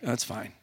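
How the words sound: It is said flatly, with little enthusiasm. It is barely adequate. "the word fine was like just barely adequate, subpar. Like"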